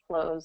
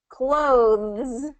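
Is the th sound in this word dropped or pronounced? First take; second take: dropped; pronounced. First: Said naturally with the th sound dropped. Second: Said slowly with the th sound pronounced. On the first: "it's always going to pronounce without the T H sound" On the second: "if we're slowing it down and we're kind of saying that, then we'll get the T H in there"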